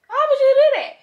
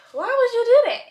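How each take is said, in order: First: Higher, louder repeat of the question; exasperated yell. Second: High, loud, fed-up question; exasperated. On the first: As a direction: shout it at the absent puppy. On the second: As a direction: ask it in disbelief. Puppy peed all over house. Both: Real, not acted.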